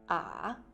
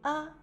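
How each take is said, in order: First: The pitch dips down and comes back up. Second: The syllable is said lightly and briefly. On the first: "au troisième temps, la prononciation fait un virage" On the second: "au cinquième ton, il prononce légèrement et court"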